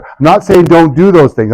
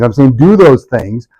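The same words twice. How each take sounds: First: "saying" leaned on, falling at the end; stress on saying. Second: Slow, with "do" leaned on hard; slow down and hit "do"; stress on do. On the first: Speaker correcting the audience, stress on "saying". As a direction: push the word "saying" to correct them. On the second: Speaker correcting the audience, slow stress on "do". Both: Shown as a demonstration.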